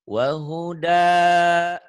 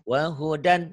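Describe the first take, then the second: First: It ends on a lengthened vowel without n. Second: It ends with a clear n sound. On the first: The reading stops at this word. "kalau dihentikan bener, wa huda, kenapa jadi panjang?" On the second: The reading continues past this word. "sekarang lagi dibaca apa adanya"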